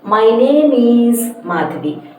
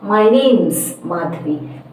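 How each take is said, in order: First: Name and is are said long and separate. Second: Name and is are contracted, short and joined. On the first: The speaker calls it wrong. "there is a little bit of inappropriate pronunciation in saying" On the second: The speaker calls it right. "You contract it. You make it very, very short"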